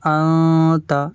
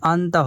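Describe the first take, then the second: First: The n sound is hidden in nasalization. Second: The n sound is pronounced clearly. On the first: The speaker calls it right. "এখানে আমাদের পড়তে হবে আতা" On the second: The speaker calls it wrong. "আনতা হবে না"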